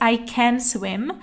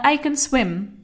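First: Can has a full, open vowel. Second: Can has a weak, reduced vowel. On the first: The speaker calls it wrong. "není přirozený říct" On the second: The speaker calls it right.

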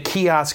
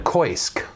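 First: It is said as two syllables, kee-osk. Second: It is said as one syllable, koy-sk. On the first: The speaker calls it right. "I found out it's kiosk" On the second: The speaker calls it wrong. "I was saying it wrong"

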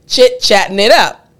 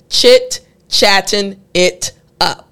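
First: The phrase is said quickly. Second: The phrase is said slowly. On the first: "the purpose is for you to be able to say it like this" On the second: "And I started slow"

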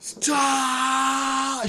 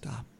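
First: It is yelled at full volume. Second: It is said quietly, without yelling.

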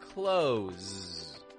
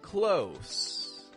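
First: It ends with a voiced buzzing z sound. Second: It ends with a voiceless hissing s sound. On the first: "Flowing with voice"

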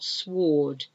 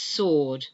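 First: The W sound is pronounced after the S. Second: The W sound is silent after the S. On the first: The speaker calls it wrong. "It's not sword" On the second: The speaker calls it right. "It's sword. ... another silent W"

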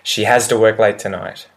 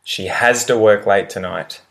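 No difference in how they are said.

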